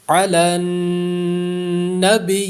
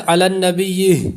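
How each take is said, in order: First: علی النبی recited slowly, pausing without an added h sound; علی النبی بغیر ہا کی آواز; correct tajweed. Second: علی النبی ending with an added breathy h sound; the mistake of adding h to علی النبی; غلط وقف; wrong reading. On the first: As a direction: stop on علی النبی with no h at the end. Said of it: "غنہ کریں گے". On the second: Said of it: "بعض لوگ اس کو یوں پڑھ جاتے ہیں". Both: Shown as a demonstration.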